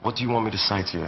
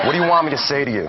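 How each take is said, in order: First: Natural British accent, softer; real British accent. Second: American accent. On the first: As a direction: say it in your own English accent. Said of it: "the same thing in your real". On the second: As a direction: switch into your American character's accent. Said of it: "Talk American". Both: Shown as a demonstration.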